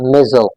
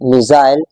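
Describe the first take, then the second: First: It is said in an American accent. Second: It is said in a British accent. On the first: "American English में" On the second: "British English में"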